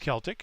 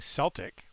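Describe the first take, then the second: First: The word begins with a hard k sound. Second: The word begins with a soft s sound. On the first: It refers to the non-American sense of the word. "with a hard k sound, like, you know, car" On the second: It refers to something American, like the basketball team. "like celery"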